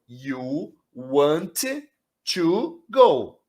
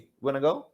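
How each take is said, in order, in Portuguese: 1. Cada palavra de 'want to' é falada separadamente. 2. 'Want to' se junta num único 'wanna' curto. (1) "Você vai no livro, você aprende" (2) "Aí você vem pra vida real, o cara fala assim"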